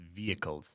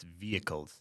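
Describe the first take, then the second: First: The h sound in the middle is silent. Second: The h sound in the middle is silent.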